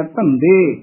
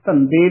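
First: ਧੰਦੇ with ਧ in both syllables, falling tone; correct pronunciation. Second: ਧੰਦੇ ending in a plain ਦ; mispronunciation demo. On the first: Teacher models ਧੰਦੇ for reciters, double ਧ. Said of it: "ਦੋਵੇਂ ਧੱਦੇ ਬੋਲਨੇ ਆ". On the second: Teacher warns reciters, ਧੰਦੇ with one plain d. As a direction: soften the second consonant of ਧੰਦੇ to a plain d. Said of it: "ਇੱਕ ਦੱਦਾ ਲੱਗ ਜਾਂਦਾ ਹੈ". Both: Shown as a demonstration.

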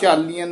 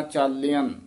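First: ਚਾਲੀਅਨ said with a long ee on ਲੀ; wrong long vowel. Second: ਚਾਲਿਅਨ with a short i on ਲਿ; short i vowel. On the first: Teacher warns the student off the long ee. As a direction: drag out the ਲੀ in ਚਾਲੀਅਨ as the wrong form. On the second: Teacher corrects the student with the short i. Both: Shown as a demonstration. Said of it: "ਚਾਲੀਅਨ ਨਹੀਂ ਕਹਿਣਾ".

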